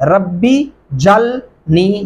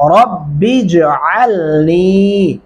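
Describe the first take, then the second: First: The throaty 'ain' sound is left out. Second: The throaty 'ain' sound is clearly pronounced. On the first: The speaker calls it wrong. "یہ غلط ہوگا" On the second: The speaker calls it right. "علنی کیا پڑھیں گے؟"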